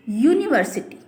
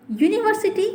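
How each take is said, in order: First: Said in the usual way. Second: यूनिवर्सिटी said high with a clear "yu" start; teacher showing the "yu" sound of यूनिवर्सिटी; pron demo. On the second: Shown as a demonstration. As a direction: lift यूनिवर्सिटी up and stretch the opening yu. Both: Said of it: "sound देखिए आप".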